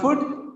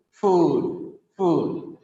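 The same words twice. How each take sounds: First: "food" cut short, ending like "foot"; short vowel and hard T ending in "food"; wrong pronunciation. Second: "food" with long OO and D ending; correct pronunciation. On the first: Teacher showing the mistake, short "foot"-like "food". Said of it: "It's not food". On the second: Teacher correcting the class, long-vowelled "food". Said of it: "It's not food, it is". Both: Shown as a demonstration.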